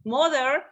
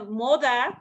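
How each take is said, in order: First: "mother" said slowly with an R at the end; careful American "mother", R-coloured ending; American pronunciation. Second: "mother" with open "ah" ending, no R; demonstrated British "mother", ending "dah"; British pronunciation. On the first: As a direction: say "mother" American-style, final R sounded. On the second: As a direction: say "mother" the British way, dropping final R. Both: Shown as a demonstration. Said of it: "or the word mo".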